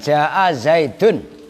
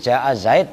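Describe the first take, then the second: First: The last word ends with the full -un ending. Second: The last word stops short on the final consonant. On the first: This is the ordinary reading mid-sentence. "kalau baca biasa" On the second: This is the pausal form at the end of a sentence. "dengan mensukun akhir keduanya"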